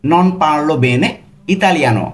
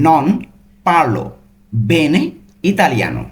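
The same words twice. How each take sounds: First: Very slow, joined-up Italian; the full sentence, slow and smooth; slow whole phrase. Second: Slow, separated Italian words. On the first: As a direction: say it slowly in one go. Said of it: "এটার Italian কি হবে". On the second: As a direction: give each word on its own. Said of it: "প্রত্যেকটা কিন্তু ভেঙে ভেঙে বললাম". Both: Shown as a demonstration.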